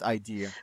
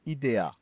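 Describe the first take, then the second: First: The word is pronounced the English way. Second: The word is pronounced the Greek way. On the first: The word is treated as English. The speaker calls it wrong. "not idea" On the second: The word is taken from Greek. The speaker calls it right. "it's Idea because it's from a Greek word and not an English one"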